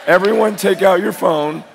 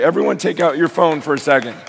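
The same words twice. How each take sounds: First: Firm, louder repeated instruction; louder command. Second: Said in the usual way. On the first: Real, not acted. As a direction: call it out to the whole room.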